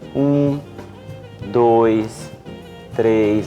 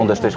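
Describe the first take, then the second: First: It is counted slowly with long vowels. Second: It is counted fast with short vowels. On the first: This is how a person who talks slowly speaks. "Ele prolonga o tempo de duração da vogal" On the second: This is how a person who talks fast speaks. "O indivíduo que fala rápido, ele encurta o tempo de duração de vogal"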